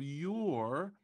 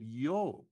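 First: YOUR drawn out with a clear R; YOUR said the standard way; full R. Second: YO for your, with stretched open vowel; missing R. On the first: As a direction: sound the R ending YOUR. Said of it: "instead of your". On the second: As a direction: drop the R and stretch YO. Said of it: "They stretch the vowel". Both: Shown as a demonstration.

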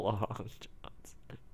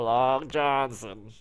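First: Slow, softer whisper; hushed meme repeat. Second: Stretched slow x0.4 delivery; a touch of the talking cat meme; slow drawn-out meme. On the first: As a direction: breathe it out slowly. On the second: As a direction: drag every syllable. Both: Retold or imitated.

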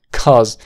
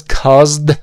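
First: CAUSED said as "cauz", no D; silent final D. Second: CAUSED with the D clearly released; over-pronounced "cauz-D"; sounded final D. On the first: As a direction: drop the D at the end of CAUSED. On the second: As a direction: hit the final D in CAUSED loudly. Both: Shown as a demonstration. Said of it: "No es caused".

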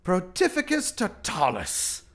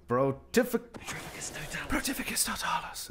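First: Said in the usual way. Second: Imitated whisper. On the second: Gamer copying the hero's stealth spell in a whisper. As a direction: whisper the incantation as the game's wizard does. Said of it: "It's a little weird when he whispers it".

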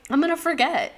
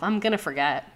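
First: Higher and louder, half-laughing insistence; emphatic repeat. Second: Said in the usual way. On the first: Real, not acted. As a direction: throw the repeat up high and loud, owning it. Repeats line more emphatically.

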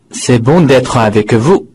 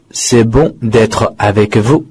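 First: Said in the usual way. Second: "C'est bon d'être avec vous" repeated slowly, each word separate; slow it down so students can follow; slow model reading. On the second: Shown as a demonstration. Teacher repeating the answer for students, slowly. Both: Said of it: "答案非常的简单".

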